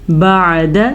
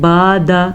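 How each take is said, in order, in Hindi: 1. स्वर को छोटा और झटके से रखा जाता है। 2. स्वर को लंबा खींचा जाता है। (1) "आपने क्या पढ़ना है?" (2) "बाज़ लोग इसको पढ़ते हैं बादा, आपने ऐसे नहीं पढ़ना।"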